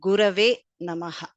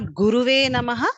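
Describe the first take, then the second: First: The second vowel is an a sound. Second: The second vowel is an u sound. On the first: The speaker calls it right. "it is Gurave Namaha" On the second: The speaker calls it wrong. "It is not Guruve Namaha"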